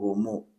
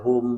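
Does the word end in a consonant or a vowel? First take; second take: vowel; consonant. First: The word ends with an added vowel sound. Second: The word ends in a closed consonant sound. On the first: This is one reciter's reading variant. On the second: This is the usual reading.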